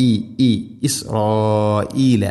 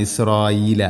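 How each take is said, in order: First: ഇസ്രായീല with a crisp glottal stop on the hamza, drawn out slowly; slow correct ഇസ്രായീല with a distinct hamza; clear hamza. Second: ഇസ്രായീല read with the hamza slurred away; ഇസ്രായീല without a clear glottal stop; wrong reading. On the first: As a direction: model ഇസ്രായീല, stopping cleanly on the hamza. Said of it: "ഹംസ കൃത്യമായിട്ട് ഉച്ചരിക്കണം". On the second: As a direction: demo the mistaken ഇസ്രായീല, hamza dropped. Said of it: "അങ്ങനെയല്ല". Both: Shown as a demonstration.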